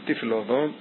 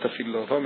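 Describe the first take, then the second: First: The word is said like 'tafel', meaning tasteless. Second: The word is said the ordinary way. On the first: The speaker calls it right. "אלא תפיל לו עבום, לשון תפלו, לשון דבר תפל" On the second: The speaker calls it wrong. "לא"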